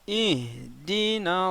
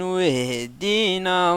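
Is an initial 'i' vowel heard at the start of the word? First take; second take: yes; no. First: It starts fresh with an initial 'i' vowel. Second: It joins the previous word without an initial 'i'. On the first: "on commence, on dit i" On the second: "quand j'ai lié nasta'in à yahdina, j'ai pas dit i"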